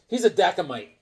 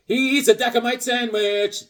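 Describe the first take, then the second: First: Said in the usual way. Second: Slow, higher, savoured repeat; slower emphatic repeat. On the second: Shown as a demonstration. Admiring the comic character, slow and higher. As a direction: draw the phrase out for the punchline.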